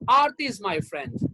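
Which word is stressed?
Aarti. The word Aarti carries the stress. This particular person, not others, is the friend. "That means Aarti is my friend. Geeta, Sunita, they are not my friends"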